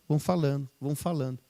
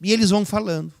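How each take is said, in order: First: Each repeat softer, trailing off; fading away. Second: Said in the usual way. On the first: Shown as a demonstration. Preacher trailing off as the disciples talk on. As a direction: let the repeats die away. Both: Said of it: "repeated, fading".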